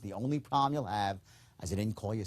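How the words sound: It is said in a calm, low-key way. The speaker calls it right. "Sincerity is calm. It's low key"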